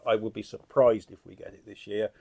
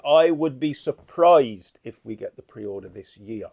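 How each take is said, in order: First: Said in the usual way. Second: Slow, weighty first take, leaning on each word; slow emphatic. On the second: Shown as a demonstration. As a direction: lay it down slowly like a firm prediction.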